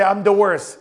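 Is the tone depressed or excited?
depressed. It is said in a gloomy, depressed tone. The discovery is felt as a personal defeat. The speaker calls it wrong. "why are you saying it with the depression face?"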